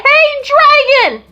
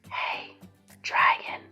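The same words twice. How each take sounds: First: It is shouted very loudly. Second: It is whispered very softly.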